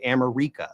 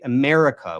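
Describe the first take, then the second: First: "America" as am-er-EE-ka; wrong pronunciation. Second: Said in the usual way. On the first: Shown as a demonstration. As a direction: move the stress in "America" to a long REE. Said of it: "We don't say". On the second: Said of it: "We say".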